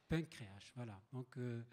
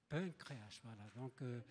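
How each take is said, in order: The two takes are said the same way.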